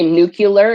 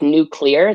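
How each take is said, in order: First: An extra 'cu' syllable is added in the middle. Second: It is said as 'new' plus 'clear'. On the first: The speaker calls it wrong. "There is no second U in nuke. It's not nuclear" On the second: The speaker calls it right. "Literally the word new, ... and the word clear"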